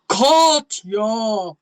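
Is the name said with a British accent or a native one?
British. It is said in a refined British English voice.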